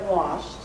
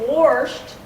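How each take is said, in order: First: The word has no r sound after the vowel. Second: The word has an r sound after the vowel. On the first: This is the standard form. The speaker calls it right. "instead of washed" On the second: This is the local dialect form. The speaker calls it wrong. "Many of us have been known to say washed"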